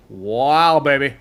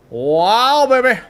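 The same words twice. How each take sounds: First: Said in the usual way. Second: Excited. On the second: Real, not acted. Player admires a creature, second time.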